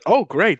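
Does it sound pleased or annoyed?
pleased. It sounds genuinely pleased.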